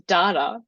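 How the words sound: It is said in an Australian accent. The speaker calls it right. "it's a very much an Aussie pronunciation of the word"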